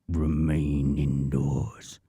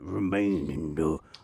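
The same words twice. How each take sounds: First: The voice has a heavy added bass effect. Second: The voice has no added bass effect.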